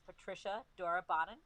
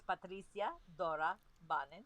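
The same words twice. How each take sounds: First: The name is pronounced the everyday way. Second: The name is pronounced the original way. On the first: "My name is" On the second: "If we were to say it correctly"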